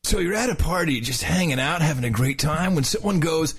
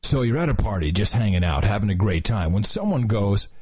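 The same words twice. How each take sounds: First: Surfer dude narrating; laid-back surfer announcer. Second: Said in the usual way. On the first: Shown as a demonstration. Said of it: "the whole thing in a surfer's voice". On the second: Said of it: "should I do both voices?".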